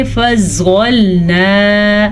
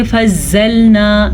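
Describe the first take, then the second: First: فضلنا with a full, heavy ظ. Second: فضلنا with a thin, z-like ظ. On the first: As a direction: round the mouth for a thick ظ in فضلنا. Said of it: "صحیح مخرج کے ساتھ پڑھا، پر پڑھا". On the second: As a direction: say فضلنا lightly, like a z. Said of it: "اگر ہم باریک پڑھیں گے". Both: Shown as a demonstration.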